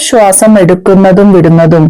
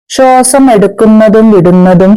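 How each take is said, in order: Both takes have the same delivery.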